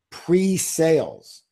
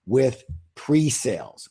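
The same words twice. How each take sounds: First: Pre-sales drawn out slowly and pitched higher, falling at the end; slow stress on Pre-sales. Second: Said in the usual way. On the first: Shown as a demonstration. Author drilling the key word for listeners to note down, slow and stressed. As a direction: lean on Pre-sales, spelling it out slowly for the audience. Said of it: "Write that down". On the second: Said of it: "What's the word, everybody?".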